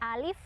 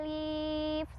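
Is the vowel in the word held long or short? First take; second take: short; long. First: The vowel is held short, one beat. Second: The vowel is drawn out long. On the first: The speaker calls it right. "bacanya satu harokat" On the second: The speaker calls it wrong.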